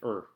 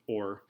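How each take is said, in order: First: The word is reduced to a short 'er' sound. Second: The word is said fully with an 'or' sound. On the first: "some of my words I tend to slur and, and say things wrong" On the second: "instead of or"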